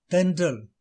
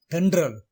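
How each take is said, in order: First: "தென்றல்" with ன்ற as one blend; correct pronunciation. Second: "தென்றல்" as then-dral, rolled r; wrong pronunciation. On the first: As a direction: say "தென்றல்" without rolling the r. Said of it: "சரியான உச்சரிப்பு". (சரியான உச்சரிப்பு "தென்றல்", ன்ற ஒரே ஒலி) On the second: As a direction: say "தென்றல்" with separate d and r. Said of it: "தவறான உச்சரிப்பு". (தவறான உச்சரிப்பு "தென்றல்", தெண்ட்ரல் என்று) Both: Shown as a demonstration.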